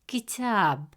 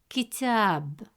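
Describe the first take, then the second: The two takes are said the same way.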